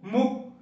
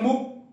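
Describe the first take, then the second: The two takes are said the same way.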